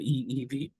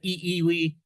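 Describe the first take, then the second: First: The consonant before the last vowel is a V. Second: The consonant before the last vowel is a W. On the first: The speaker calls it right. "it is correctly the E E V" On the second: The speaker calls it wrong. "if you said E E V, nobody nobody would would correct you"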